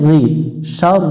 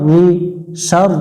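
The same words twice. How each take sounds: Both takes have the same delivery.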